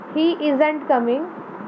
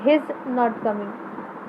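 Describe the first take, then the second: First: 'Not' is shortened and joined onto 'is'. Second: 'Is' is shortened and joined onto 'he'. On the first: "पहले वाले line में हमने नॉट का ओ जो है उसको साइलेंट कर दिया" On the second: "सेकेंड वाले में हमने इसका आई वाला जो था पोर्शन उसको साइलेंट कर दिया"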